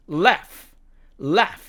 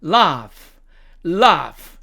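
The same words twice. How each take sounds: First: American "laugh", front a; American demo of the word "laugh"; American accent. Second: British "laugh" with long ah; British demo of the word "laugh"; British accent. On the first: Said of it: "미국식 발음으로는". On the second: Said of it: "영국식 발음으로 가면". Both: Shown as a demonstration.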